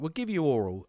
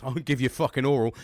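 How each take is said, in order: First: Said in the usual way. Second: Suggestive, a bit louder; cheeky innuendo. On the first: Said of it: "They were like". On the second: Shown as a demonstration. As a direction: lean into the dirty joke. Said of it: "See, I went straight there".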